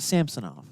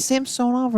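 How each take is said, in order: First: Samsonov with a reduced middle, "SAM-suh-nov"; alternative pronunciation. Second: Samsonov with a long O, "sam-SOH-nov"; pronunciation check. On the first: Co-host offering the other option, Samsonov with short middle. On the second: Co-host checking a goalie's name, Samsonov with long O. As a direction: say Samsonov with a full "soh" in the middle. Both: Shown as a demonstration. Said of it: "Is it Samsonov or is it Samsonov".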